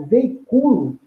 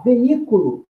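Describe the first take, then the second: First: Veiculo with the stress on CU; penultimate stress. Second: Veículo with the stress on the í; veículo leaning on the í, cu left weak; antepenultimate stress. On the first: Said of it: "Uma paroxítona". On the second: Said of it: "a penúltima e a antepenúltima". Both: Shown as a demonstration.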